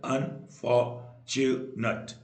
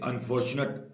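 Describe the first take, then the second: First: unfortunate slowly split into four beats; syllable by syllable. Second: Said in the usual way. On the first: Shown as a demonstration. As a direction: pause between each syllable of unfortunate. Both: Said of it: "चार syllable".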